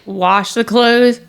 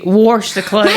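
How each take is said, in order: First: Wash is said without an R sound. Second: Wash is said like 'warsh' with an R.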